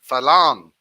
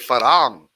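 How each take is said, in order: First: The second consonant is an L sound. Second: The second consonant is an R sound. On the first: This is how some other people say it. "Some people say Falang" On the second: This is how the speaker says it. "I say Farang. I kind of use the R"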